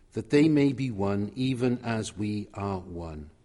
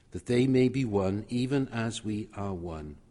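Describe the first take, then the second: No difference in how they are said.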